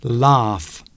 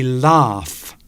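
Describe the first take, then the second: No difference in how they are said.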